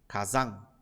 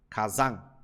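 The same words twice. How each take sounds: Both takes have the same delivery.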